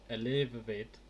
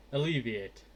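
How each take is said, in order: First: "alleviate" fumbled as i-LEV-uh-vet; stumbled pronunciation. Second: "Alleviate." said cleanly as uh-LEE-vee-ate; correct pronunciation. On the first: Real, not acted. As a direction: trip over "alleviate", vowels wrong. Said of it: "I can normally say that word normally". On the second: Shown as a demonstration. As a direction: nail "Alleviate." at last, stress on LEE. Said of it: "That's it".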